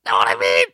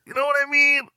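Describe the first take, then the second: First: Dropped, much lower question; low repeat. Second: Very high comic squeak; squeaky high question. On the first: Host echoing own question, low voice. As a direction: drop the pitch right down for the question. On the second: Host checking with listeners, squeaky high. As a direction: shoot the pitch way up. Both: Pretend.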